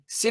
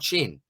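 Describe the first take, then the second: First: The name begins with an s sound. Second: The name begins with a ch sound. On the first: "Sin or Chin?" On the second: "I think it is Chin"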